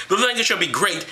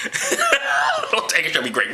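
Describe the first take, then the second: First: Said in the usual way. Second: High, slow, laughing scripture quote; laughing mock reading. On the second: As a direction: read the verse slowly through high laughter. Cracking up at the verse reread.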